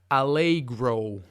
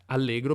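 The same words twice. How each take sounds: First: The vowels are glided into diphthongs. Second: The vowels are plain, without diphthongs. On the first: "gli anglofoni tendono a pronunciare alcune vocali con dei dittonghi" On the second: "in italiano erano semplici"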